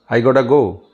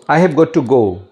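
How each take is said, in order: First: The middle words blend into one reduced word. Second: Each word is said separately and in full.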